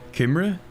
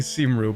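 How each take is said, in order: First: The word begins with a K sound. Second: The word begins with an S sound. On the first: The speaker calls it right. "it's like Kimre or Kimri or something" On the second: The speaker calls it wrong. "I'm pronouncing that wrong"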